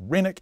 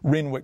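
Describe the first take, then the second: First: The w sound is silent in the middle. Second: The w sound is pronounced in the middle. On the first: This is how long-time residents and the original namesake say it. The speaker calls it right. "originally it was called Renwick, even though it was spelt with a W" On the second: This is how newer residents say it. The speaker calls it wrong. "It's pronounced Renwick by newer locals"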